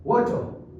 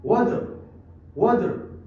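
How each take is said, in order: First: वाटर said as "waw-tuh", final r dropped; r skipped. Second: वाटर with the t turned into d; American pronunciation. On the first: Teacher repeats British वाटर for learners, r skipped. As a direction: drop the r at the end of वाटर. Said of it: "थोड़ा सा skip करते हैं". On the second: Teacher shows learners American वाटर, t becomes d. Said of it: "ये डी पे बदल जाता है". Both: Shown as a demonstration.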